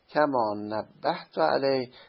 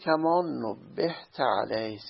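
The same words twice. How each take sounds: First: The verb is pronounced nabbahtu. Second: The verb is pronounced nubbihta. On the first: The author alerted the reader to this point. "تنبیه کردم بر این مطلب" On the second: The reader was alerted to this point. "صیغه مجهول بخونیم، تو متنبه شدی"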